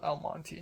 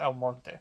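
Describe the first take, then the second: First: El Monte ending in "tee". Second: El Monte ending in "tay"; "El Monte" as el MON-tay, Spanish-like. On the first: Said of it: "not El Monte". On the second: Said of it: "I think it's called". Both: Shown as a demonstration.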